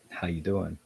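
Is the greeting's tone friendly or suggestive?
suggestive. It is said in a loaded, suggestive tone. It hints at romantic interest. The speaker calls it wrong. "not how you doing"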